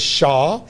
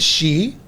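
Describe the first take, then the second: First: The name rhymes with 'spa'. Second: The name rhymes with 'see'. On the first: "been pronounced as Shah" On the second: "It has been pronounced as she"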